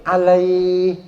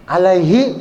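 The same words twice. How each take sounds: First: "alaih" with lai held long; lengthened at stop. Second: "Alaihi" with a short lai; short reading. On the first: Teacher showing the stopping form, "alaih" drawn out. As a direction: sustain the lai in "alaih" on a level note. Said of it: "Tapi karena kita berhenti". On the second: Teacher giving the mid-sentence form, "Alaihi" kept short. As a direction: say "Alaihi" without holding the vowel. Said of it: "harusnya pendek". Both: Shown as a demonstration.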